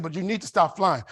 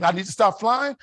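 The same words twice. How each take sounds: First: Said in the usual way. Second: "I need to stop flying?" thrown back higher and louder as a question; incredulous echo question. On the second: Retold or imitated. Husband throws wife's demand back at her, incredulous.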